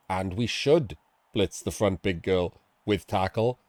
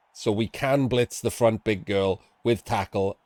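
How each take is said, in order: First: "should" punched above a lower, softer line; stress on should. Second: "can" picked out in measured coaching; stress on can. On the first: Coach recommending the move, firm stress on "should". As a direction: lean on "should" to turn option into advice. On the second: Coach explaining the possible move, stress on "can". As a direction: lean on "can" to show it's possible. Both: Real, not acted.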